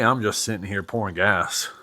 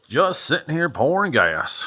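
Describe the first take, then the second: First: Said in the usual way. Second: Put-on terrible southern accent. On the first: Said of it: "I hope I didn't offend anybody with my southern". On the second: Musing aloud while pouring gas, terrible southern accent. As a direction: put on a bad country twang, Southern US. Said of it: "terrible southern accent with gas".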